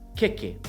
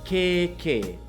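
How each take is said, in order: First: Both vowels are short. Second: Both vowels are long. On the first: The word means cake. "with no macrons at all" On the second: The word means armpit. "with two macrons"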